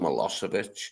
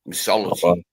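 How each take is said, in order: First: The name is said fully as 'Milosevic'. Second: The name is garbled into 'Missology'. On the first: The speaker calls it right. "and it was Savo Milosevic" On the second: The speaker calls it wrong. "he kept calling him Missology"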